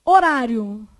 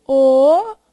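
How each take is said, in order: First: Said in the usual way. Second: Horário as loud, separate ho, rá, rio; syllable by syllable. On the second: Shown as a demonstration. Teacher dividing Horário for the class, syllable by syllable. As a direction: break Horário into long held syllables.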